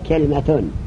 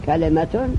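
First: The l is followed directly by m. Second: The l is followed by an i vowel. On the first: "بسکون لام" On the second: "کسر لام"

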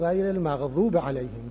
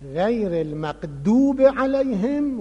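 First: The letter dad is pronounced as a Z sound. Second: The letter dad is pronounced as a D sound. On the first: This is how the speaker's own tradition says it. The speaker calls it right. "گفتم بگو" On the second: This is how people in Syria say it. The speaker calls it wrong. "الان شما سوریا ببین همشون اینجوری میکنن"

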